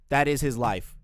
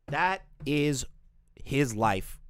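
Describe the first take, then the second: First: "That" hit loud, the phrase unbroken; emphatic restatement. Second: "That is", pause, then "his life"; emphatic pauses. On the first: Streamer insisting on the pattern, loud stress on "That". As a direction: punch "That" and run straight through. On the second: Streamer summing up Tipster's pattern, pause after "is". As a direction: break it after "is" for weight. Repeated for emphasis, first broken up. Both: Real, not acted.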